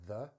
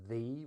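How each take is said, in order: First: The vowel is a short, reduced schwa. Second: The vowel is a full, strong vowel. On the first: The speaker calls it right. "we're going to use the weak form" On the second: The speaker calls it wrong. "which is a strong form"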